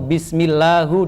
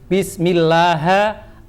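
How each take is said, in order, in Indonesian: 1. Kata ini berakhir dengan vokal 'u'. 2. Kata ini berakhir dengan vokal 'a'. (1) "Nggak boleh" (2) "Nggak boleh"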